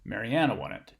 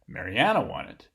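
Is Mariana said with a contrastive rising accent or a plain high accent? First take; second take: plain high; contrastive rise. First: Mariana carries a plain high pitch accent. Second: Mariana carries a contrastive rising pitch accent. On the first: It simply answers who won. "a regular H star is um, providing an informative function" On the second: It corrects the belief that someone else won. "so this one is contrastive"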